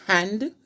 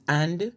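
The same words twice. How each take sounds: First: Said in the usual way. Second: "and" for hand, no H; dropped H. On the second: Shown as a demonstration. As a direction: start "and" straight on the vowel. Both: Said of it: "the H is never pronounced".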